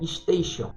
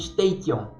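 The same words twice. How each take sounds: First: The ending is said with a sh sound. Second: The ending is said with a t sound. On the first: The speaker calls it right. "só que se pronuncia station" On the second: The speaker calls it wrong. "com T, ao invés de Xion no final"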